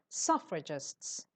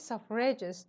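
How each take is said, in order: First: The stress is on the first syllable. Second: The stress is on the second syllable. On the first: The speaker calls it right. "It's on the first syllable" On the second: The speaker calls it wrong. "You're putting the stress on re"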